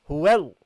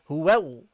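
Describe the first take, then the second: The two takes are said the same way.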